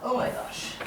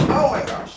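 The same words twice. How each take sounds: First: Breathless whispered oh my gosh; whispered gasp. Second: Said in the usual way. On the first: Real, not acted. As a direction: whisper it in sudden alarm. Bed sinking, panicked under breath.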